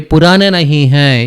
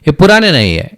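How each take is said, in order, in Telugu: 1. రెండు పదాలు 'nahi hai' పూర్తిగా, స్పష్టంగా పలకబడతాయి. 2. 'Nahi hai' కలిసిపోయి చిన్న 'nayye' లాగా పలకబడుతుంది. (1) "నహీ హై ఈ రెండింటిని చాలా క్లియర్గా పలు ప్రొనౌన్స్ చేస్తున్నాను" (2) "నహిని నై నై అంటారు. ఈ హైని కూడా ఐ అంటారు"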